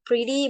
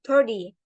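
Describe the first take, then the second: First: The sounds are in their usual order. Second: Two sounds in the word switch places. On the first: This is the intended word. The speaker calls it right. "when we want to say pretty" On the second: It is a slip of the tongue. The speaker calls it wrong. "but we said that like pretty"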